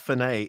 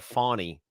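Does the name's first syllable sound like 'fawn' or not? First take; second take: not fawn; fawn. First: The first syllable does not sound like fawn. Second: The first syllable sounds like fawn. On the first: The speaker calls it wrong. "It's no" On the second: The speaker calls it right. "It's like a fawn, like a little baby deer"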